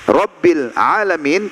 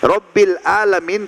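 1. Alamin diawali dengan bunyi ain yang tegang di tenggorokan. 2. Alamin diawali dengan hamzah biasa. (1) "bedakan antara hamzah, alif dengan ain" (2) "Tuhannya orang-orang sakit"

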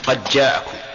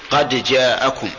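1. يُدغم صوت الدال في الجيم التي بعدها. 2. يُنطق صوت الدال بوضوح قبل الجيم. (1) "فمثل إدغام الدال بالجيم، مثل قد جاءكم" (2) "والقراءة المشهورة هي التحقيق"

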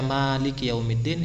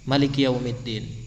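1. Vokal pertama pada Maliki panjang. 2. Vokal pertama pada Maliki pendek. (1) "Biasanya kita akan membaca" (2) "bila alifin, tanpa alif"

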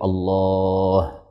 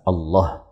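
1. Vokal pada 'lah' ditahan sangat panjang. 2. Vokal pada 'lah' dibaca pendek. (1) "atau lebih panjang dari itu" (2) "asalkan tidak dibaca qasr, asalkan tidak dibaca Allah"

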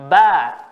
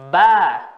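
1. Vokalnya adalah bunyi 'a' terbuka. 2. Vokalnya adalah bunyi 'a' terbuka.

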